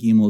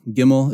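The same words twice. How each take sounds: First: The first vowel is an 'ee' sound. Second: The first vowel is not an 'ee' sound. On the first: The speaker calls it right. "probably the more proper way because eyes make E sounds in Hebrew" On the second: The speaker calls it wrong. "is how we say it sometimes"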